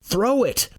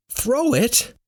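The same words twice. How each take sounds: First: High-pitched urgent yell, volume held back; yelled order. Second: Incredulous echo. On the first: A narrator's reading. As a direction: shout a command in alarm. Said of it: "Roar yells". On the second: Acted. Narrator questions the yelled order.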